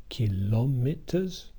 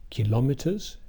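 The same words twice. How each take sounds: First: "kilometers" slowly, syllable by syllable; four separated syllables. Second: Said in the usual way. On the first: Shown as a demonstration. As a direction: draw out "ki-lo-me-ters" as four syllables. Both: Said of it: "with the four syllable word".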